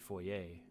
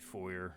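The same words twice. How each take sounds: First: The word has a French pronunciation. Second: The word has an English pronunciation. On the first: "In in French it'd be foyer" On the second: "in English it would be foyer"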